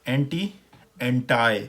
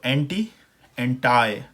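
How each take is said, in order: No difference in how they are said.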